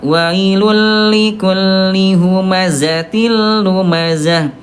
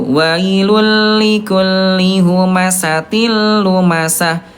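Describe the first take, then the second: First: The middle consonant is a voiced z sound. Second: The middle consonant is a voiceless s sound. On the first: The speaker calls it right. "Jadi Bunda betul yang kedua ya. Huruf zai dia jahar" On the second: The speaker calls it wrong. "Bukan pakai sin ya"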